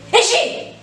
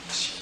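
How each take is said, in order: First: It is called in a very angry voice. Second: It is called very quietly, almost silently.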